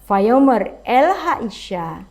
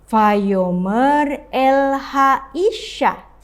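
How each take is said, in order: First: It is read at a faster pace. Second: It is read at a slower pace.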